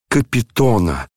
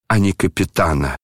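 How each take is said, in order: First: "Капитона" with a clear stressed O; corrected name. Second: "капитана" with an A in the stressed third syllable; rejected word. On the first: General insisting on the first name, "Капитона" with stressed O. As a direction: insist on "Капитона", the O in the third syllable. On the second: General rejecting the misheard rank, "капитана" with stressed A. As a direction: say "капитана", the rank, dismissively ending in -ана. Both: A narrator's reading. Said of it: "совсем сбившись".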